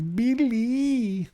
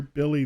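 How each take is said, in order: First: Mock New York Billy. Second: Said in the usual way. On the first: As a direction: sing out "Billy" like Rosie Perez. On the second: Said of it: "that's all I think of is Billy".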